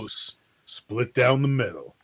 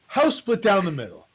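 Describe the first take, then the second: First: It is said in a dramatic movie-trailer voice. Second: It is said in his own normal voice.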